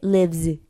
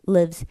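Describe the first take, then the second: First: The final z is heavy and strong. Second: The final z is very light. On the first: The speaker calls it wrong. "즈까진 아니에요" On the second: The speaker calls it right. "굉장히 가벼운 z 발음인데"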